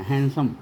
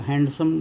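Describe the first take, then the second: First: "हैंडसम" with no d sound, as "hansam"; silent D. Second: "हैंडसम" with the d pronounced, as "hand-sam"; D sounded. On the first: Teacher correcting handsome for students, D left out. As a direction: say "हैंडसम" as han-sum, dropping the D. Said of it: "डी नहीं बोला जाता है". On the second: Teacher showing students the wrong handsome, D pronounced. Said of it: "हैंडसम बोलना गलत है". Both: Shown as a demonstration.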